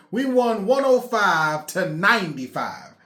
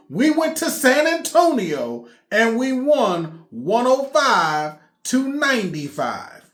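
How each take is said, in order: First: Said in the usual way. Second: Said again slowly, each number stressed; slow emphatic repeat. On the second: Shown as a demonstration. Fan repeating the score slowly so it sinks in. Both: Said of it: "I'll say it again".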